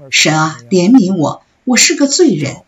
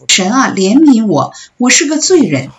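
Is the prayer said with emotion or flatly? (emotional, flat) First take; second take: flat; emotional. First: The prayer is recited flatly, without feeling. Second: The prayer is cried out with strong feeling. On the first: It is only a report of what was prayed. The speaker calls it wrong. "不要说，你知道他做了什么祷告" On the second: It is a heartfelt plea to God. The speaker calls it right. "要带着感情。当那人从他心里向神呼喊"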